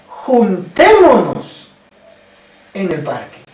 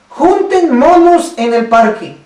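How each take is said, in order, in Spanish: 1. La tónica cae en la segunda sílaba. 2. La tónica cae en la primera sílaba. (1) "La tilde, la fuerza" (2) "le quitaron la tilde"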